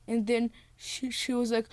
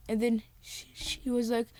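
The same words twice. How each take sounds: The two takes are said the same way.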